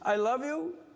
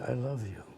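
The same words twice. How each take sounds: First: It is said loudly, projected to a crowd. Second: It is said softly, as to one person.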